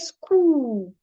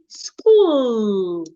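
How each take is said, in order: First: The final L sound is dropped. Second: The final L sound is clearly heard. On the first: The speaker calls it wrong. "Don't say school" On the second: The speaker calls it right. "make sure the L is heard"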